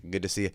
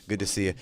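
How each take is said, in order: Both takes have the same delivery.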